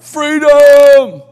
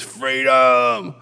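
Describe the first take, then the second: First: Huge, high, drawn-out battle cry; Braveheart yell. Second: Long, held mock crowd roar in the usual pitch; crowd's answering yell. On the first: Acted. Worship leader rousing the conference crowd, full-voiced yell. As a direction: belt it out long and loud. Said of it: "he yells out". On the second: Everybody at the conference answers the leader, held crowd yell. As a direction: echo the cry back as a mass chant. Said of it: "everybody screams".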